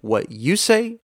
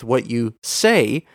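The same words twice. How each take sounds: First: "you" lifted above the other words; stress on YOU. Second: "say" held and lifted at the end; stress on SAY. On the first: Podcast teacher contrasting meanings for listeners, stress on "you". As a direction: lean on "you" in the question. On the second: Podcast teacher contrasting meanings for listeners, stress on "say". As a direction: put the weight on the last word, "say". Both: Shown as a demonstration. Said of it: "an emphasis given to one word".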